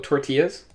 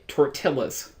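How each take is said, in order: First: The double L sounds like a Y. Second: The double L sounds like an L.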